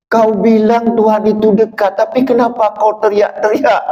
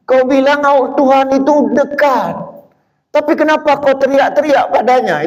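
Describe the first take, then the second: First: Higher poetic recitation; reciting a poem. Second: Much higher, dramatic recitation; declaiming a poem. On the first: Preacher quoting Mustafa Bisri's poem, higher and declaiming. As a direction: read it as a challenge. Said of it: "Mustafa Bisri pernah buat puisi". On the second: Preacher reciting the poem again, high and dramatic. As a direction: throw the question at the crowd. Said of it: "Itu buat puisi". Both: Retold or imitated.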